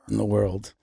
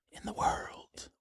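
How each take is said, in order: First: Lower, voiced and restrained; mock-dramatic low voice. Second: Slow, hushed whisper; mock-dramatic whisper. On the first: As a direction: drop the pitch for a grand boast. Same boast repeated, now voiced. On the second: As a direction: whisper it like a grand secret. Mock-dramatic boast, take whispered.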